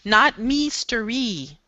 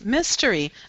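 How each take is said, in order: First: The first vowel is a long 'ee' sound. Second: The first vowel is a short 'ih' sound. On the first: The speaker calls it wrong. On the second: The speaker calls it right.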